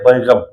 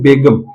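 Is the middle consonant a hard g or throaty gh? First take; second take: throaty gh; hard g. First: The middle consonant is a throaty gh. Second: The middle consonant is a hard g. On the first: It means free of worry. "गए के नीचे नुक्ता, इसको कहते हैं" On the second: It means the king's wife. "कोई नुक्ता लगा हुआ नहीं है"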